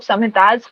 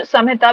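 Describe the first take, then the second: First: संहितास said with a clear final s sound; संहितास ending on a hissed s; plural form with s. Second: संहिता said without the final s, ending on a; संहिता with an open a ending and no s; short form. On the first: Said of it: "कुछ लोग संहितास भी कहते हैं". (संहितास अंत में साफ़ स के साथ) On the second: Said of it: "कुछ संहिता भी कहते हैं". (संहिता बिना स के, अंत में खुला अ) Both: Shown as a demonstration.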